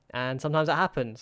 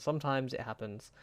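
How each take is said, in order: First: Said in the usual way. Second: Much softer, resigned repeat. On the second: Real, not acted. Manager shrugging off the lost title, soft resigned repeat. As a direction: let it fade out in resignation.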